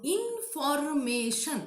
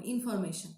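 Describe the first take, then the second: First: Information slowly, in-for-ma-tion; syllable by syllable. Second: Said in the usual way. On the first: Shown as a demonstration. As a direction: draw out each syllable of "information".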